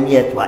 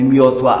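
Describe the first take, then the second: First: The vowel after 'mi' is an 'e'. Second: The vowel after 'mi' is an 'o'. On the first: This is the local dialect form. "ale mietła" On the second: This is the standard form, not used locally. "Nie mówimy miotła"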